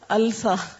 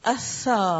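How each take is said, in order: First: The L is clearly pronounced before the s. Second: The L is silent; the s is doubled. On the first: The speaker calls it wrong. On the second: The speaker calls it right.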